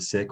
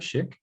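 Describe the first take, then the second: First: The word begins with a hissing s sound. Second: The word begins with a hushing sh sound. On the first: "instead of sick" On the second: "we have shik"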